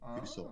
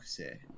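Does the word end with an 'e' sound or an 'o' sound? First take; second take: o sound; e sound. First: The word ends with an 'o' vowel. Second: The word ends with an 'e' vowel. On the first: This is the standard form. "kuso, rather" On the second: This is the slang form. "Kuse is the more slang version"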